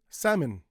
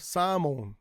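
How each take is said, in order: First: It is said with English sounds. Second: It is said with Japanese katakana sounds. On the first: "In English" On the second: "in katakana"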